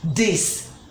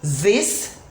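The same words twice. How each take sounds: First: The first sound is a hard d. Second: The first sound is a soft voiced th. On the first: The speaker calls it wrong. "Here you will hear people say that, this ... No. It's not the D sound" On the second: The speaker calls it right. "so this is that, this"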